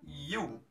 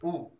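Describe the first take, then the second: First: It is said starting with a y-sound. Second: It is said as a plain oo vowel. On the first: The speaker calls it right. "kalau bahasa Inggris ini bacanya U" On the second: The speaker calls it wrong. "vokal kalau bahasa Indonesia"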